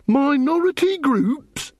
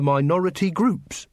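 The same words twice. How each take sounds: First: MINORITY GROUPS slow and high, in disbelief; indignant echo. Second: Said in the usual way. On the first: A narrator's reading. Angua throws Carrot's phrase back, indignant disbelief. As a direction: stretch "Minority groups?" out, pitched high, rising.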